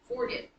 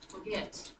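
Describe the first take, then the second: First: The stress is on the first syllable. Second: The stress is on the second syllable. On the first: The speaker calls it wrong. "if we flipped it and accented the first syllable" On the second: The speaker calls it right. "The first one is not accented"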